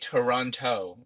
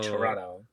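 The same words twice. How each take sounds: First: The second T is pronounced clearly. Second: The second T is dropped, like Toronto locals.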